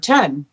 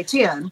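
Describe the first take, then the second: First: "ten" in one syllable with a clean short E; correct "ten". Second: "ten" stretched toward "tee-in"; Southern "ten". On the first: Shown as a demonstration. Newcomer defending how she says it, "ten" with a short E. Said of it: "saying the word ten correctly". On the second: Retold or imitated. Newcomer mimicking classmates' word, "ten" as Southern "tee-in". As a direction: draw "ten" out with a Southern vowel glide.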